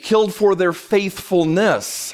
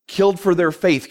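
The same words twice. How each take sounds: First: Slow, drawn-out, near-sung stress on faithfulness. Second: Said in the usual way. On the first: Shown as a demonstration. Preacher correcting himself, stressing faithfulness, slow and sung. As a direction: lean hard into faithfulness and stretch it out.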